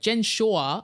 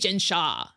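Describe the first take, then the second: First: The name's vowel sounds like 'aw'. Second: The name's vowel sounds like 'ah'. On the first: Someone else said it this way. The speaker calls it wrong. "there was an Australian on a podcast I listened to that was like" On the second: This is how the speaker's own group says it. The speaker calls it right. "no, no, no, we say"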